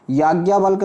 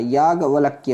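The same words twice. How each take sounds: First: याज्ञावल्क ending abruptly in -valk; wrong form. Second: याज्ञवल्क्य ending in -valkya; याज्ञवल्क्य as yaag-valak-kya; correct form. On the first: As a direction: say याज्ञावल्क with no final ya. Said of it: "नहीं होता बच्चे". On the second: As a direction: add ya to the end of याज्ञवल्क्य. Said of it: "होता है". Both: Shown as a demonstration.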